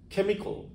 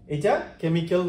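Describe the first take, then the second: First: The final syllable sounds like 'ol'. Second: The final syllable does not sound like 'ol'. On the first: The speaker calls it right. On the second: The speaker calls it wrong.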